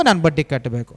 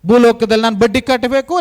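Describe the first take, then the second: First: Much lower and softer, ನಾನು leaned on as it falls; soft echo. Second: Said in the usual way. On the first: Shown as a demonstration. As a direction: drop the repeat of ನಾನು ಬಡ್ಡಿ ಕಟ್ಟಬೇಕು to a low aside. (ಮೃದುವಾದ, ತಗ್ಗಿದ ಧ್ವನಿಯ ಪ್ರತಿಧ್ವನಿ)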